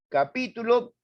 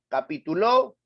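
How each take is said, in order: First: The stress is on the second syllable. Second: The stress is on the last syllable. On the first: "capítulo esdrújula" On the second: "Capituló aguda"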